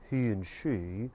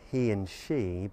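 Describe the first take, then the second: First: The vowel is said with rounded lips. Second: The vowel is said with spread lips. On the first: The speaker calls it wrong. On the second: The speaker calls it right.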